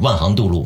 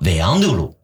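First: It is said with standard Mandarin pronunciation. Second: It is said with Shanghainese pronunciation.

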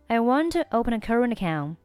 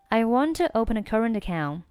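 No difference in how they are said.

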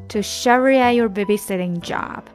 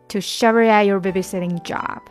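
The two takes are said the same way.

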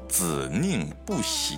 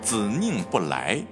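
First: The last syllable is pronounced li. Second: The last syllable is pronounced lai. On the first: This is the old reading that keeps the rhyme. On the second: This is the modern reading of the character.

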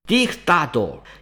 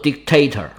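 First: The word is pronounced the Latin way. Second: The word is pronounced the English way. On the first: "拉丁语里面读作" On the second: "英语里面读作"

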